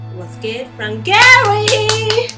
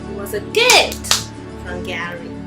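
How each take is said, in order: First: The word Gary carries the main stress. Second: The word gift carries the main stress. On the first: Who gave it is what matters. "what if she say it in another way?" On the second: The thing received is what matters. "She emphasized on the word gift instead of Gary"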